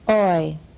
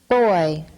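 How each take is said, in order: First: The initial b is left out entirely. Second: The initial b is a normal oral stop. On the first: "omitted stop" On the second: "normal stop"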